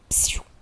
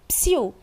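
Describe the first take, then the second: First: Psiu is said as a hushing request. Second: Psiu is said as a call to someone. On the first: It is a request for silence. "esse psiu passa a transmitir a ideia de um pedido de silêncio" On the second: Someone is calling for the other person. "Com essa entonação, a interjeição psiu traz a ideia de que alguém está chamando pelo outro"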